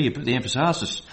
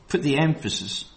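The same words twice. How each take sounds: First: Emphasis with the stress moved to the last syllable, em-pha-SIS; Nigerian stress. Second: Said in the usual way. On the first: Retold or imitated. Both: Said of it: "or if you're in Nigeria".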